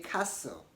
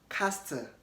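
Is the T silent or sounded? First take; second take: silent; sounded. First: The T in the middle is silent. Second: The T in the middle is pronounced. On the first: The speaker calls it right. "Say castle" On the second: The speaker calls it wrong. "you don't want to say castle"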